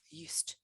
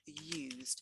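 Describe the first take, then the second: First: The final consonant sounds like a T. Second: The final consonant sounds like a D. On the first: It means being accustomed to something. "we pronounce the D as a T" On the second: It means having made use of something. "there we are pronouncing the D as a D"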